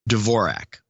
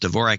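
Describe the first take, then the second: First: The name is pronounced the American way. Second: The name is pronounced the Czech way. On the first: "the American pronunciation is Dvorak" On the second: "in much of Czechoslovakia is pronounced Dvorak"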